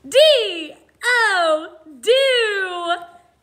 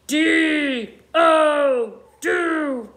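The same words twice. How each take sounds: First: It is spoken in an energetic, excited voice. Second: It is spoken in a growling, monstrous voice. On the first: "like we're really excited about it" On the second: "like a scary monster"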